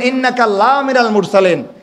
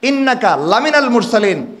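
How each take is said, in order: First: The 'la' stands apart as a long 'laa'. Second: The short 'la' is joined to the next word. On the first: You are not one of the messengers. The speaker calls it wrong. "নিশ্চয়ই আপনি আল্লাহ রসুলদের কেউ না" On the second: You are surely one of the messengers. The speaker calls it right. "এটা এটা লামে তাকিদ"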